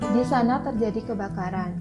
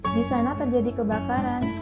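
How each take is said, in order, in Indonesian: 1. Suara turun di akhir. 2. Suara naik di akhir. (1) "Kalimat tersebut menyatakan kalimat berita" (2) "Kalimat tersebut menyatakan kalimat pertanyaan atau kalimat tanya"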